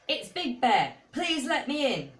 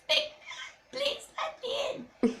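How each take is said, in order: First: It is said in a normal voice. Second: It is said in a very tiny voice.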